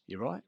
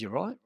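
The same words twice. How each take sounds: First: A curt, suspicious challenge. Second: Sharper challenge, higher and louder; curt, pushier. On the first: Flatmate confronting him at the door, curt. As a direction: cut him off short and cold. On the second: Flatmate repeating his challenge, curt and louder. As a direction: push it at him, more aggressive. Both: Retold or imitated. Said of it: "he was really curt".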